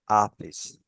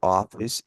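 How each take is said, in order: First: The first vowel is a clear, open 'ah' sound. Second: The first vowel is a central, neutral vowel. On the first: The speaker calls it right. "it's your office. Like with an A" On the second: The speaker calls it wrong. "It's not your office"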